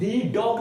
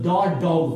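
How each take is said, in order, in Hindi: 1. 'The' का उच्चारण लंबे 'thee' स्वर के साथ होता है। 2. 'The' का उच्चारण छोटे 'thuh' स्वर के साथ होता है। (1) "दी डॉग नहीं" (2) "तो इसको हम लोग द डॉग पढ़ेंगे"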